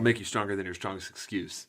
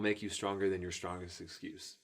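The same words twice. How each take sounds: First: The line is spoken at a normal, quicker pace. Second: The line is spoken at a slower pace.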